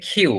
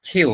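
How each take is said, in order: The two takes are said the same way.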